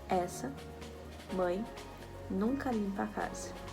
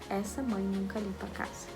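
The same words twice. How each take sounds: First: There is a pause within the sentence. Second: There is no pause within the sentence.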